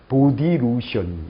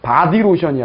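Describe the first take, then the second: First: The first vowel is a rounded 'oh' sound. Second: The first vowel is an open 'ah' sound. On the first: The speaker calls it right. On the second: The speaker calls it wrong. "바디 로션이 아니라"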